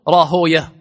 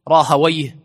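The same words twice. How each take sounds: First: The name ends without a 'wayh' sound. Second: The name ends with a 'wayh' sound. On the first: The ending is avoided as a name of the devil. "فكرهوا النطق بويه، فكل اسم على هذا الوزن نطقوه راهويه" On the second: The name is kept as the father gave it. "وهذه الأسماء تنطق ويه"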